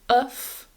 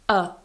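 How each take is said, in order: First: It ends in a voiceless f sound. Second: It is just a weak vowel, no consonant. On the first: "with a f, so there's no vibration there" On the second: "And a"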